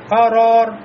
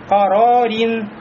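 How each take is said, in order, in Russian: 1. Слово заканчивается без звука -in. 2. Слово заканчивается звуком -in.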